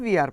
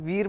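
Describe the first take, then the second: First: The two words are said as separate syllables. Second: The two words merge into one syllable. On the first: "full form में वी आर पढ़ेंगे" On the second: "short form में वीर पढ़ते हैं"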